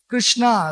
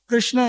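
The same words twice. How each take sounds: First: The final a-vowel is held long. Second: The final a-vowel is said short. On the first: The name is feminine. "long ah" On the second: The name is masculine. "Krishna is male gender"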